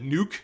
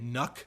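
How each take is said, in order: First: The vowel is a long oo sound. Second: The vowel is a short uh sound. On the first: It is said this way as a joke. "I've often called it Nuke, just to be funny" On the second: It is the usual way people say it. "most people are pronouncing it Nuck"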